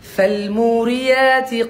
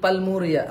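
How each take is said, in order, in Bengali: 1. শব্দটি F ধ্বনি দিয়ে শুরু হয়। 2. শব্দটি P ধ্বনি দিয়ে শুরু হয়। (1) "ফ ফ ফ" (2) "অনেকে পা বলে"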